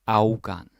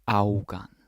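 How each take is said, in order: No difference in how they are said.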